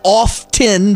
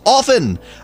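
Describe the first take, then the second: First: The T sound is pronounced in the word. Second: The T sound is silent in the word. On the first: The speaker calls it wrong. "It's not often" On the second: The speaker calls it right. "The T is silent"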